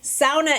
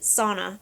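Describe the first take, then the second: First: The word has a regional Upper Michigan pronunciation. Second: The word has the widespread standard pronunciation. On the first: "Sauna is what we call it in the Upper Peninsula of Michigan" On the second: "the rest of the world calls it sauna"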